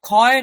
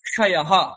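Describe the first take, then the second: First: The cluster is pronounced as a plain kh sound. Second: The cluster is pronounced as k followed by sh. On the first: The speaker calls it wrong. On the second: The speaker calls it right.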